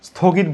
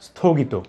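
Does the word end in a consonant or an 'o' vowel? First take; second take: consonant; vowel. First: The word ends on a bare consonant. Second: The word ends with an 'o' vowel. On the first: The speaker calls it wrong. "এটা কখনো স্থগিত বলবো না" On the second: The speaker calls it right. "শেষে কিন্তু ও উচ্চারণ হবে"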